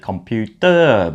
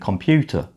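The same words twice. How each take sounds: First: The final syllable is full and drawn out. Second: The final syllable is short and weak. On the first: The speaker calls it wrong. "if we're beginning with our English, we might say computer" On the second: The speaker calls it right. "it's a short ending computer"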